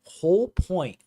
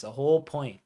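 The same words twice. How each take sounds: First: Put-on "Whole point" in an overdone English dialect accent, higher and louder, "point" near "pint"; butchered English dialect accent. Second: Said in the usual way. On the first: Fan on stream repeats his phrase in a hammed-up English dialect accent. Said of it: "weird English dialect accent that's being just butchered". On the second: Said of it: "Sounds like I'm saying a whole pint".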